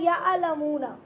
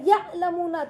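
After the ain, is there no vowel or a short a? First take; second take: short a; no vowel. First: The ain is followed by a short a. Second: The ain carries no vowel after it. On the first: The speaker calls it wrong. "आइन पर जजम की जगह जबर बढ़ा दिया" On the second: The speaker calls it right. "या आइन पर जजम था, या अलमूना था"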